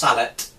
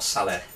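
First: The word is pronounced the English way. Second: The word is pronounced the French way. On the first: The speaker calls it right. "Pronounced sallet" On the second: The speaker calls it wrong. "not sallet. This is a British word, not a French word"

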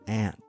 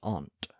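First: The word is said in a plain everyday way. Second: The word is said in a fancier, pretentious way. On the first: This is how the word is normally said now. "words that I'm going to pronounce the way I pronounce them" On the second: This is a former, pretentious way of saying it. "I used to be pretentious and say aunt"

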